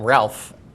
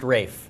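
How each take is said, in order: First: The name has a short vowel and an L. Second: The name rhymes with safe, with no L. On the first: The speaker calls it wrong. "people calling him Ralph" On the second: The speaker calls it right. "it's pronounced Rafe"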